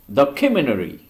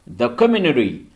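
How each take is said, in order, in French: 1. Le T après le N est omis. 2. Le T après le N est omis.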